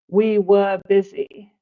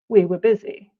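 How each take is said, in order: First: The word were has a full vowel. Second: The word were has a reduced schwa vowel.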